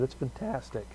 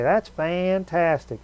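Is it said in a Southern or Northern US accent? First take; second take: Northern; Southern. First: It is said in a Northern US accent. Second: It is said in a Southern US accent.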